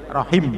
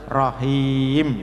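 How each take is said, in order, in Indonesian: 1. Vokal sebelum m terakhir itu pendek. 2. Vokal sebelum m terakhir itu panjang. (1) "tidak boleh rohim" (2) "itu berarti panjang, maka wakafnya harus rohim"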